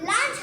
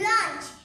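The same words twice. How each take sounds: First: The vowel sounds like an open 'a'. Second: The vowel sounds closer to an 'o'. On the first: The speaker calls it wrong. "আমরা সাধারণত লাঞ্চ বলি এটা লাঞ্চ হবে না" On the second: The speaker calls it right. "এখানে এর উচ্চারণ হবে না এটা ও ও এর উচ্চারণের মতো"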